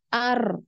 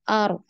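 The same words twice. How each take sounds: First: The r is trilled with many vibrations. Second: The r is trilled with one vibration. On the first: The speaker calls it wrong. "bukan ar, ar. Nah, itu banyak" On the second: The speaker calls it right. "jadi sekali saja getarannya. Ar, baru dialirkan"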